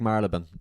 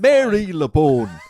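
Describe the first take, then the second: First: It is not pronounced as it is spelled. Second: It is pronounced just as it is spelled. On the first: The speaker calls it right. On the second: The speaker calls it wrong.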